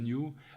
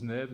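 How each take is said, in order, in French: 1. Il se prononce comme l'anglais 'new'. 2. Il se prononce 'nev-uh', épelé tel quel. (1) "comment on prononce le New" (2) "elle prononce Neve"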